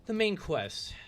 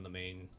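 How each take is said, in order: First: "the main quest" said much higher and louder, falling on "main"; stress on main quest. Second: Said in the usual way. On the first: Real, not acted. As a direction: punch "main quest" up high and loud. Self-correction, emphatic repeat.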